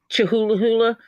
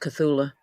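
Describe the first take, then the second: First: The name sounds like 'Chihuahua hula'. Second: The name sounds like 'Cthulhu'. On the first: The speaker calls it wrong. "That's not how you say it" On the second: The speaker calls it right. "I think it's pronounced Cthulhu"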